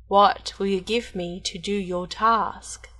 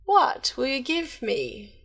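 First: Slow, lightly voiced goblin; a hint of a crafty dwarf; sly hobgoblin. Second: Slow, sly goblin bargaining; lightly voiced crafty little man; sly hobgoblin. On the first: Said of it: "and said". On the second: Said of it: "said the hobgoblin". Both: A narrator's reading.

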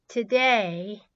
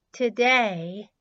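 No difference in how they are said.

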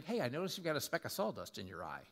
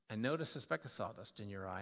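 First: Quick, offhand correction; casual fault-finding. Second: Lower, gently acted confession; humble, gentle. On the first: Acted. Hypocrite pointing out a friend's speck, offhand. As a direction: toss it off at a brisk clip. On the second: Humbled man approaching his buddy, gentle. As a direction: ease into it, low and careful.

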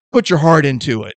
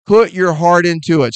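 First: Said in the usual way. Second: Repeated louder, with more force; emphatic, louder. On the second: Shown as a demonstration. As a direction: punch it out the second time. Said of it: "I mean".

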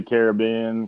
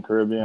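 First: Caribbean as KARE-uh-BEE-un; stress on third syllable. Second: Caribbean as kuh-RIB-ee-un; stress on second syllable. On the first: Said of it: "some people say". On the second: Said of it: "I say it Caribbean". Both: Shown as a demonstration.

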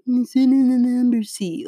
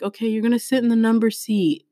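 First: High-pitched mimicry of a mocking student. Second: Said in the usual way. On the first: Student parroting the teacher's seat instruction, mockingly. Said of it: "she actually mocked me". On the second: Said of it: "I'm like".

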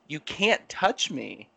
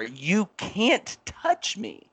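First: Slow, firm refusal at normal volume; firm warning. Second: Retold yell. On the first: Retold or imitated. Telling the lady not to touch his arm, firm warning. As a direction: re-enact a measured warning, drawing it out. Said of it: "And I was like". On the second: Retelling his warning to a customer who kept coming, mock yell. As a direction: re-enact a yell, stretching each word high. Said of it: "I actually yelled at her".

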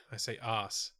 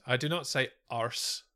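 First: "arse" as a soft, lower "ahss", no r; r-less "arse". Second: "arse" with a sounded r, the rejected way; rhotic "arse". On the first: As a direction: say "arse" with a long ah and silent r. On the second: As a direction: put an r in "arse", like "arrs". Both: Shown as a demonstration.

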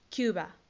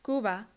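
First: "Cuba" said KYOO-ba, the English way; English pronunciation. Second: Said in the usual way. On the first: Shown as a demonstration. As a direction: model "Cuba" with a "kyu" opening. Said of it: "Cuba se dice". ("Cuba" en inglés, suena "kiúba") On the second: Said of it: "se dice".

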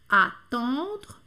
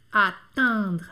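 First: Attendre with a round on nasal. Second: Attendre with a spread smiling in nasal. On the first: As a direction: round the first vowel of attendre. (attendre com on redondo) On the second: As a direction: smile through the nasal of attendre. (attendre com nasal sorriso) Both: Shown as a demonstration. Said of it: "agora vamos fazer os dois".

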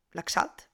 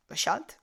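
First: Laxalt with the X as "ks"; trying a pronunciation. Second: Laxalt with the X as "sh", questioning rise; trying a pronunciation. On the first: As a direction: try Laxalt as "lak-SALT". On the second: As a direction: try Laxalt as "la-SHALT?". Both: Shown as a demonstration. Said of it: "no sé muy bien cómo funciona esa X".

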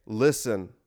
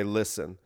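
First: Said in the usual way. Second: A grave, hushed "Listen."; the solemn leader calling for quiet; really serious. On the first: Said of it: "I would say". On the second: Pretend. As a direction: drop into dead seriousness. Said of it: "I would get really serious".

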